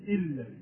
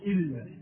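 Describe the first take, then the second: Both takes have the same delivery.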